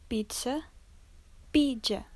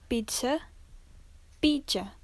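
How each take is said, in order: The two takes are said the same way.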